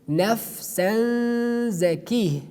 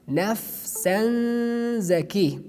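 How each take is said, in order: Both takes have the same delivery.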